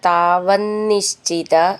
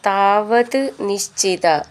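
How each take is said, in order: First: The two words are joined together. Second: The two words are said separately.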